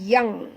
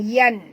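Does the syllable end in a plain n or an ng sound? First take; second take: ng sound; plain n. First: The syllable ends in a nasal ng sound. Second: The syllable ends in a plain n sound. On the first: The speaker calls it right. "bunyi dia yang, Y A N G, yang ya" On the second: The speaker calls it wrong. "bukan yan"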